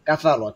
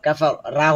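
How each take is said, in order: First: The final vowel is short, like a quick 'o'. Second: The final vowel is a long, open 'aa'. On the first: The speaker calls it right. "র sound" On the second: The speaker calls it wrong. "রা হবে না"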